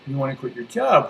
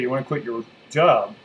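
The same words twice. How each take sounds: First: The pitch rises, like a question. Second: The pitch is low and falls. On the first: It invites the listener to explain themselves. "I'm bringing my volume up or my amplitude up or my intonation up by saying" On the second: It prompts the listener to affirm and act on it. "tone it down, right? Have the frequency go down, use a lower voice"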